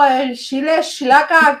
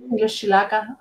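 First: Chile chilaca with sh sounds, shile shilaka; Chihuahua pronunciation. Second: Chile chilaca said as shile shilaka, softly; Chihuahua pronunciation. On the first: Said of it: "cómo dicen los de Chihuahua". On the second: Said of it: "Aquí también lo decimos". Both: Shown as a demonstration.

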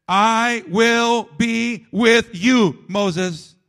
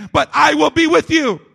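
First: Gentle, slow reading of God's promise; slow tender promise. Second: Loud and higher, preached to a peak; preacher booming the last promise; ringing proclamation. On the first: God's promise read slowly. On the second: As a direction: shout the promise out over the congregation. Climax of repeated promise. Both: Acted.

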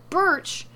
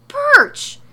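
First: High, loud, short cry of BIRCH; startled first outcry; incredulous yell. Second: Very high, very loud shriek of BIRCH; full-blown incredulous scream; yelling. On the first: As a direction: exclaim the word in disbelief. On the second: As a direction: explode on the word in outrage. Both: A narrator's reading. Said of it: "Morrow yells".

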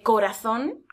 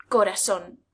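First: Corazón with th, koɾaθon; standard corazón. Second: Corazón with s, koɾason; seseo corazón. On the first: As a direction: say corazón with a lisped z. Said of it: "En vez de". (corazón con θ) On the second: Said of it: "En vez de corazón". (corazón con seseo, corasón) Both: Shown as a demonstration.

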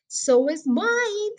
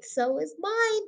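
First: Higher, slow and stretched out; father savouring the thrill, drawn out; excited agreement. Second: Higher, slow, gentler repeat; softer echo. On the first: Father tells Danny his heart is thumping too, slow and elated. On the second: Father repeats it to Danny, softer and slow. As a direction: let the second one fall back, savouring. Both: A narrator's reading. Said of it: "he cried".

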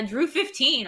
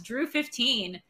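First: Spelling out the code slowly; slow and clear. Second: Said in the usual way. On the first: Shown as a demonstration. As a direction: read the code deliberately, word by word. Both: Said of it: "all caps".

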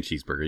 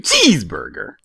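First: Said in the usual way. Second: "cheeseburger" with CHEESE punched hard; stress on CHEESE. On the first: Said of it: "but you weren't saying cheeseburger". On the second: Retold or imitated. Mimicking the friend's word back, stress on CHEESE in "cheeseburger". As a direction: hit CHEESE hard in "cheeseburger", let burger drop. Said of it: "putting so much accent on cheese".

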